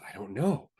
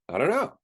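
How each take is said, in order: First: It sounds worried and anxious. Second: It sounds excited and curious. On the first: Not knowing feels threatening. "there was worry and trepidation" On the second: Not knowing feels like an adventure. "there's some excitement and curiosity there"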